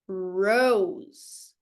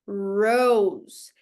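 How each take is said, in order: First: The first R sound is strongly pulled back. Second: The first R sound is strongly pulled back.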